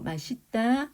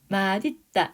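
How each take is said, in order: First: The final consonant links over as an s sound. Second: The final consonant links over as a d sound. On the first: This is common usage and is tolerated. "이렇게 바로 올려가지고 맛있다, 멋있다 이렇게 많이 하니까 그대로 봐준다는 거야" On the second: This is the standard form by rule. "이렇게 되는 게 원칙이야. 음질 끝소리 규칙 적용되고 올라가는 거야"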